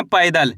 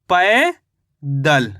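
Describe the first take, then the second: First: Said in the usual way. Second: "पैदल" drawn out, पै rising, pause, दल falling lower; syllable by syllable. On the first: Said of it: "क्या लिखेंगे?". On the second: Shown as a demonstration. Teacher sums up the spelling for learners, slowly syllable by syllable. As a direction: stretch पै in "पैदल", pause, then let दल fall. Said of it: "तो मिलके बन गया ये".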